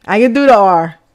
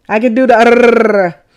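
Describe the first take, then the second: First: Said in the usual way. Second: The "R" as a long tongue trill; rolled R. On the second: Shown as a demonstration. Proving to viewers you can do the "R", long trilled ending. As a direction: draw the final "R" out into a rolling trill.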